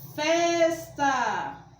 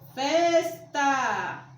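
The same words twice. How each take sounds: First: The stress is on the first syllable. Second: The same.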